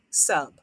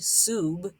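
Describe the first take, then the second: First: The vowel has its short sound. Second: The vowel says its long name sound. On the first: The speaker calls it right. "it would say the short sound" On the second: The speaker calls it wrong. "it wouldn't be S U B"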